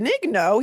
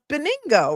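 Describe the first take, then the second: First: The name is said with 'nyo' at the end. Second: The name is said with 'ngo' at the end. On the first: This follows the written spelling. "it's spelled Benigno" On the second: This is how the man himself said it. "He called himself Beningo"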